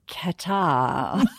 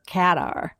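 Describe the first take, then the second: First: It is said Australian-style, drawn right out. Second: It is said with an American pronunciation. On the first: "in Australia, we like to drag it right out" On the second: "if you're American, you're Qatar"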